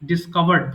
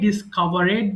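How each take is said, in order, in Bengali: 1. এই প্রত্যয়টি একটি সাধারণ 'd' ধ্বনি। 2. এই প্রত্যয়টি একটি অতিরিক্ত সিলেবল হিসেবে উচ্চারিত হয়। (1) "আমরা ডিসকভার্ড বলবো" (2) "অনেকে ডিসকভারেড বলে ফেলে ভুল করে"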